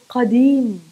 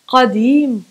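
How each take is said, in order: The two takes are said the same way.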